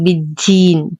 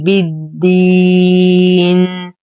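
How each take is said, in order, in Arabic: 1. الصوت الساكن في الوسط مهموس، يُنطق مثل t. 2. الصوت الساكن في الوسط مجهور تماماً، وهو d واضح. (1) "انتبه من عدم همس الدال فلا أقول بالدين. تين خطأ" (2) "بالدي دي دي بالدين"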